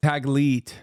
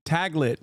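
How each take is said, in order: First: "Taglit" with a long ee, "tag-LEET"; long-vowel ending on "Taglit"; corrected pronunciation. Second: Taglit with a short i, "TAG-lit"; short-vowel ending on "Taglit"; mispronounced Taglit. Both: Real, not acted. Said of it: "I mispronounced it".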